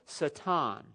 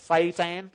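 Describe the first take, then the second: First: The word is said with a Hebrew pronunciation. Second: The word is said with a Texan English pronunciation. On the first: "another Hebrew word called satan" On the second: "when I say it in English, in West Texas"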